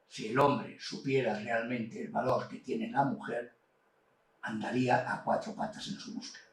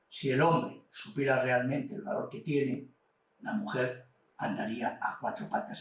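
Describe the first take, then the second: First: The pause comes after the word mujer. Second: The pause comes after the word tiene.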